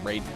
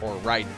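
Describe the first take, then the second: First: The name is said in an anglicized style. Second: The name is said in its original-language style. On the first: It follows how the games say it. "per the the way the games pronounce it" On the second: It follows the name's country of origin. "if you want to pronounce it correctly to the lore of the original country it's from"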